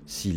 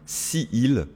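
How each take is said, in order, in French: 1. La voyelle de si est supprimée et liée au mot suivant. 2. La voyelle de si est gardée devant il.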